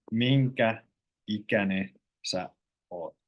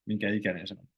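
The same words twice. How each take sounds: First: Slow, careful, drawn out word by word; said slowly. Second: Quick, casual run-together question; said quickly. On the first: Finnish teacher showing learners the slow careful version. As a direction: spell it out slowly so learners catch each word. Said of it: "It sounds weird when you say it slowly". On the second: Finnish teacher showing learners the quick casual way. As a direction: rattle it off as in everyday speech. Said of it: "When you say quickly". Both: Shown as a demonstration.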